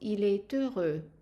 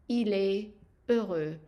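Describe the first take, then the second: First: The T links into the next word. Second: The words are separate with a silent T. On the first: "we put them together" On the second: "I'm not pronouncing the S nor the T if I break them down"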